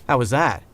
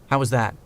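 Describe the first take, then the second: The two takes are said the same way.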